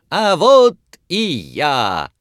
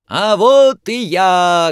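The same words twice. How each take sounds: First: High, slow showman's cry; loud shout. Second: High, slow, loud shout. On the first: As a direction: call out to the crowd again. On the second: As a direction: burst onto the stage shouting. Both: A narrator's reading. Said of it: "громко крикнул хозяин". (громкий выкрик)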